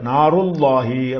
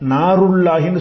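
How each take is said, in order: First: The l is heavy, with a full-mouth sound. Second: The l is light, with a thin sound. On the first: The speaker calls it right. "வாய் நிறைய உச்சரிக்கணும்" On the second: The speaker calls it wrong. "சொல்லக்கூடாது"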